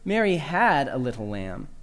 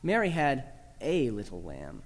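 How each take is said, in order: First: The word "had" carries the main stress. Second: The word "a" carries the main stress. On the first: She no longer has the lamb. "Emphasize the second word" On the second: The lamb is a single one, not one of a group. "Emphasize the third word, that small little article A"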